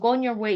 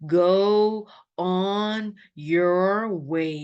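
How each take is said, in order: First: The words run together smoothly without breaks. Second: Each word is said clearly and separately. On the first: The speaker calls it right. "이러지" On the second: The speaker calls it wrong. "누가 go on your way 이렇게 하진 않거든"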